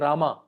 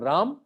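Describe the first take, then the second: First: The name ends with a full final vowel. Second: The name ends without a final vowel. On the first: This is how it is said in southern India. "in south of India, that Rama become Rama" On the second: This is how it is said in northern India. "in north of India, that Rama become in Hari become Ram"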